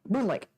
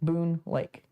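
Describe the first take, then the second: First: It is said as one single word. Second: It is said as two separate words. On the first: The speaker calls it right. "apparently it's one word" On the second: The speaker calls it wrong. "So I said wrong"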